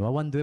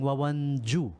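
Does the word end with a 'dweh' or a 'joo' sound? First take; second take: dweh; joo. First: The word ends with a 'dweh' sound. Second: The word ends with a 'joo' sound. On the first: The speaker calls it right. "Wawandwe po ang pronunciation yan ha" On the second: The speaker calls it wrong. "I keep saying Wawanju"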